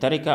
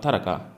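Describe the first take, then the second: First: The r is followed by an i vowel. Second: The r is followed by no vowel. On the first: "रा के कसरा ... के साथ जो है ये सही है" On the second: "रा के सुकून के साथ जो है ये सही है"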